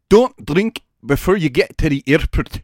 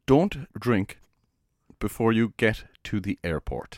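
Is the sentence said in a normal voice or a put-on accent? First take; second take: put-on accent; normal voice. First: It is said in a put-on, exaggerated accent. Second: It is said in a plain, normal voice. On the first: "Was that bad?" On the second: "Could you repeat that in a normal voice first?"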